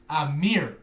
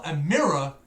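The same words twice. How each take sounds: First: Mirror squashed into one syllable, "meer"; American pronunciation. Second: Mirror said in full as two syllables, MIRR-uh; British pronunciation. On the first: Retold or imitated. Brit mimicking how Americans say mirror, American pronunciation. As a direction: say "mirror" like the name Amir, mock American. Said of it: "You'll call a mirror". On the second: Shown as a demonstration. Brit correcting Americans on a word, British pronunciation.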